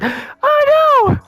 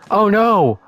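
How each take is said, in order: First: It is said in a put-on character voice. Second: It is said in a plain normal voice.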